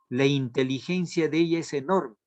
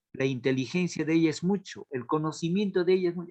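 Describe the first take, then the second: First: Said in the usual way. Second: Quick plain rephrasing. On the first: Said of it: "cómo diría, denotativamente". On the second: Shown as a demonstration. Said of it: "Ese es denotativo".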